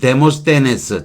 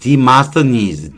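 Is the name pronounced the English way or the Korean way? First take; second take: Korean; English. First: The name is said with Korean-style syllables. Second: The name is said with English-style sounds. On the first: "데모스테네스 그런 거 하는 거고" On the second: "영어로는 아, 디마스터니즈"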